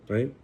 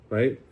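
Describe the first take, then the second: The two takes are said the same way.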